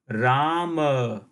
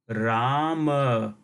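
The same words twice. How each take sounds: First: The word ends on a full vowel a. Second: The word ends on a full vowel a.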